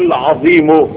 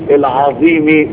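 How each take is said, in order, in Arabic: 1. الكلمة تنتهي بضمة قصيرة. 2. الكلمة تنتهي بكسرة قصيرة. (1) "لو قلت صفة للرب يبقى زي ما جات الرب مضمومة هتضم ليه؟" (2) "ولو جعلتها صفة للعرش يبقى هتقول ليه؟"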